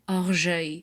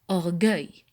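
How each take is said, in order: First: The middle consonant is a soft J sound. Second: The middle consonant is a hard G sound. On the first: The speaker calls it wrong. "Je mets le U devant le E pour ne pas dire orgueil" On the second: The speaker calls it right. "pour avoir le son G. Alors, je prononce orgueil"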